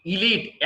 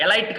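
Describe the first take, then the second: First: ఎలీట్ said "ee-LEET"; long ee in both syllables of ఎలీట్; correct pronunciation. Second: ఎలైట్ said "e-LITE"; mistaken pronunciation. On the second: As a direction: rhyme the end of ఎలైట్ with "light". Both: Shown as a demonstration. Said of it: "ఎలైట్ కాదండి".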